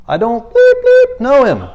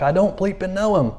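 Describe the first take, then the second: First: Higher, louder cursing denial; Peter cursing. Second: A hint of Peter denying at first; first denial, a touch raised but controlled. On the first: Retold or imitated. Peter cursing at the servant girl who recognized him, angry shout. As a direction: blurt it out like a cornered fisherman swearing. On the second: Peter to the servant girl, denying Jesus at first, lightly voiced. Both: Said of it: "he cussed at the girl".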